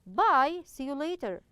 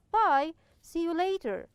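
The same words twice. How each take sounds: First: Bye, see you later. repeated, with a falling tune; model reading. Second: Bye, see you later. said with a falling tune; a clear, friendly goodbye, falling at the end; model reading. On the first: Teacher repeats the goodbye for students, falling tune. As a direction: say the goodbye clearly again. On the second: Teacher models a goodbye for students, falling tune. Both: Shown as a demonstration. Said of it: "Here, it's clear".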